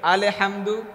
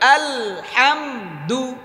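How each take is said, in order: First: An extra vowel is inserted after the L sound. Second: The L joins the H with no vowel between. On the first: The speaker calls it wrong. "অনেকে এটা পড়ে" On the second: The speaker calls it right. "হাতে চেপে আলহামদু"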